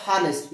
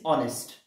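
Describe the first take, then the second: First: "honest" wrongly said with a breathed h at the start; honest with sounded H. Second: "honest" starting straight on the vowel, no h; honest with silent H. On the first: Teacher showing the mistaken pronunciation, "honest" with an audible h. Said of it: "the pronunciation of this term is not honest". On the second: Teacher correcting the pronunciation for students, "honest" with silent h. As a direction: drop the h in "honest", say "on-est". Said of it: "the pronunciation of this term". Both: Shown as a demonstration.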